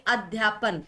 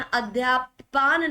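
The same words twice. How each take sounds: First: Said in the usual way. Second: अध्यापन with last vowel stretched, a-dhyaa-paan; rejected pronunciation. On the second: Shown as a demonstration. Teacher rejects a wrong spelling, long-vowel अध्यापन. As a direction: lengthen the final "pan" of अध्यापन to "paan". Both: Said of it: "अध्यापन नहीं".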